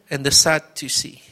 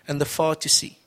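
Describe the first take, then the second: First: Sadducees said properly as "SAD-you-sees"; Sadducees said again, carefully and correctly; corrected pronunciation. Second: Sadducees said as "far-too-see", a wrong first syllable; Sadducees mispronounced with an F at the start; slip of the tongue. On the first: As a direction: fix the word Sadducees with a clear SAD. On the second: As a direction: stumble on Sadducees, saying "fardusee". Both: Real, not acted.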